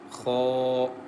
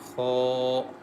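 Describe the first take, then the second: First: The kha sound is thick and heavy. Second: The kha sound is thick and heavy.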